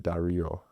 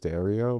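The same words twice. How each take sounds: First: The name is said with an authentic Italian pronunciation. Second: The name is said with an American-style pronunciation. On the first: This is the authentic Sicilian form. "technically from like an authentic like Italian Sicilian standard" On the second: This is how the family says it. "the way my family pronounces it"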